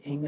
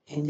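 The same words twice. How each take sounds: First: "हिंग" ending in hard g; wrong hard g. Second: "हिंज" ending in a j sound; soft g. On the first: Teacher showing what not to say, hard-g mispronunciation. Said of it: "हिंग नहीं बोलेंगे". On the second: Teacher contrasting endings for students, soft-g pronunciation. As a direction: say "हिंज", final g softened to j. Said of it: "फिर भी इसको हिंज बोलेंगे". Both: Shown as a demonstration.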